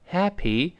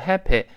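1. 词尾元音是清晰的"ee"音。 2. 词尾元音不是清晰的"ee"音。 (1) "最后那个字母y 在单词末尾发e" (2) "注意不要读happy"

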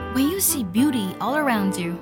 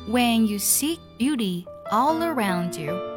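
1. 这句话是以正常语速朗读的。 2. 这句话是慢慢、仔细地朗读的。

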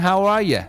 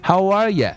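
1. 'you' 这个词会弱化读成 'ya'。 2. 'you' 这个词会弱化读成 'ya'。

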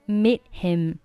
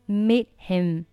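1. 'meet' 的 t 不发音，'him' 单独说。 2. 'meet' 的 t 不发音，'him' 单独说。

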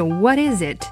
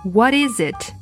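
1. 三个词连在一起读成一个。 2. 三个词连在一起读成一个。

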